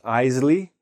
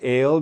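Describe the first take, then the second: First: It is said with an extra syllable, like Isley. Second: It is said with an 'ay' vowel, like ale. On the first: "not Isley" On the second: "Not ale"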